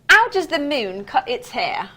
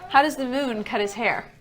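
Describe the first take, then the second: First: It is said in a put-on accent. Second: It is said in a plain accent.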